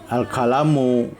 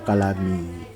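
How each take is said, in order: First: The word ends with a u vowel. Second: The word ends with an i vowel. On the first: The speaker calls it right. "Jadi al-kalamu" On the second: The speaker calls it wrong. "tidak boleh dibaca al-kalami"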